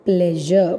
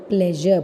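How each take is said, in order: No difference in how they are said.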